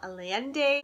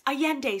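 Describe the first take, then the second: First: The L sounds in the name are pronounced. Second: The L sounds in the name are silent. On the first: The speaker calls it wrong. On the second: The speaker calls it right.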